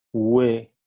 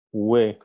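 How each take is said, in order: First: Ue glides upward in pitch, u to e; rising tone demo. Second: Ue said lower with a gentler rise; rising tone again. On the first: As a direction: let Ue rise from the u into the e. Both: Shown as a demonstration. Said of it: "el tono de voz va aumentando".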